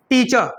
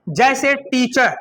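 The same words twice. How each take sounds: First: टीचर said tiːtʃə, final r left out; teacher without the r. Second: टीचर drawn out slowly with the r sounded; slow full r. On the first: Teacher shows the modern way, r dropped in टीचर. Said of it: "नहीं, क्या बोलते हैं". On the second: Teacher shows the old way, slowly sounding the r. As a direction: say टीचर slowly and roll the final r. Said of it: "कभी टीचर बोलते हैं". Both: Shown as a demonstration.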